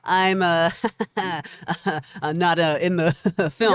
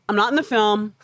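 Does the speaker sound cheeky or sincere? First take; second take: cheeky; sincere. First: It is said coyly, with playful hesitations. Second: It is said plainly, without playful hesitations. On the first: The denial is not meant seriously. "It didn't sound like he was being cheeky or being like" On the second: The denial is meant seriously. "He was very straightforward"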